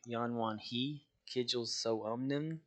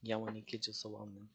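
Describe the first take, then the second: First: The syllable after 'Yanwan' begins with an H sound. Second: The syllable after 'Yanwan' begins with an N sound. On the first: The speaker calls it wrong. "you want to like say it like" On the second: The speaker calls it right. "like an N I sound instead of a H I"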